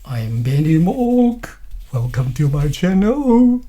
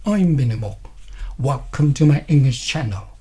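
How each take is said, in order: First: "Mok" and "channel" stretched out and swung upward; wrong rising tone. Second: "I'm Benny Mok" and "channel" each dropping at the end; falling tone. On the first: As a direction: drag out and lift the endings of "Mok" and "channel". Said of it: "I will not say it like". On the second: Teacher models general statements, falling tone on "Mok" and "channel". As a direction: lower your tone on the last word, "Mok", "channel". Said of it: "lower your tones at the end". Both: Shown as a demonstration.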